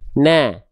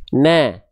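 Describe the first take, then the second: Both takes have the same delivery.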